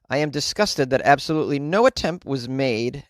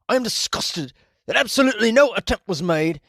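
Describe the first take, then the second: First: It is read in the speaker's ordinary accent. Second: It is read in an attempted Scottish accent.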